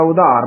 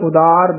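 First: The middle consonant is a breathy dh. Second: The middle consonant is a plain d. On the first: The speaker calls it wrong. "ਉਧਾਰ ਨਹੀਂ ਕਹਿਣਾ ਹੈ" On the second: The speaker calls it right. "ਉਦਾਰ ਦੱਦੇ ਨਾਲ ਬੋਲਿਆ ਜਾਏਗਾ"

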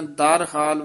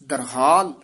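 First: The word is split into two separate parts. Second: The word is said together as one unit. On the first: The speaker calls it wrong. "ਦਰ ਹਾਲ ਵੱਖਰਾ ਨੀ ਕਹਿਣਾ" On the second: The speaker calls it right. "ਦਰਹਾਲ ਪਾਠ ਇਕੱਠਾ ਹੀ ਕਰਨਾ"

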